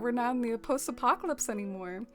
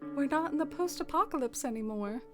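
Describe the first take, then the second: First: It is said in the speaker's normal accent. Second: It is said in a put-on old-fashioned accent.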